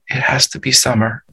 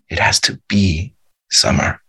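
First: No single word is especially stressed. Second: The word be is stressed.

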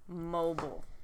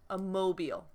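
First: It is pronounced in its adjective form. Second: It is pronounced in its noun form. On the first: The word means able to move. "we pronounce the adjective like a mobile home" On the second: The word means a hanging decoration. "And then as the noun"

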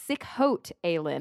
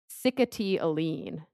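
First: It sounds like 'sick-hote alien'. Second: It sounds like 'sick-ety ah-leen'. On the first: The speaker calls it wrong. "is how I thought you pronounced it, but mm-hmm. That's totally not right at all" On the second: The speaker calls it right. "It has like this weird pronunciation"

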